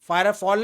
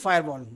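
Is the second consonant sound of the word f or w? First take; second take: f; w. First: The second part starts with an f sound. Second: The second part starts with a w sound. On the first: The speaker calls it wrong. "फायरफॉल नहीं फायरवॉल, मैं गलत pronounce कर रहा हूँ" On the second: The speaker calls it right.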